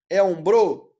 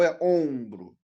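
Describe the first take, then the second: First: Ombro stressed on the last syllable, om-BRÔ; wrong stress. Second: Ombro stressed on the first syllable, OM-bro; correct stress. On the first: Teacher testing students with wrong final stress on ombro. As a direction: punch the final BRO of ombro, questioning. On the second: Teacher offering students the right option, long first syllable in ombro. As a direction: hold the nasal OM of ombro, let BRO fall. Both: Shown as a demonstration. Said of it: "É ombro ou é ombro?".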